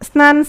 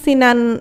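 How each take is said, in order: First: The s and n form a cluster without vowel. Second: An i vowel is inserted between s and n.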